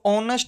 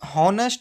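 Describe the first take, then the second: First: The word begins with a vowel sound. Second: The word begins with an h sound. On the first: The speaker calls it right. "तो ऑनेस्ट बोला जाएगा" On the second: The speaker calls it wrong. "हम हॉनेस्ट पढ़ते हैं"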